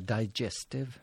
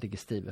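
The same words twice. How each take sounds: First: The word is said with an English pronunciation. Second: The word is said with a Swedish pronunciation. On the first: "det engelska digestive" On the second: "Det låter nästan lite göteborgskt"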